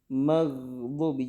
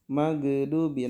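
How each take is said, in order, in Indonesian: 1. Bunyi gh mengalir lancar tanpa memantul. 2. Bunyi gh dipantulkan dengan lepasan yang tajam. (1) "suara yang ngalir" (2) "nah itu lebih keliru lagi kalau dipantulkan ya"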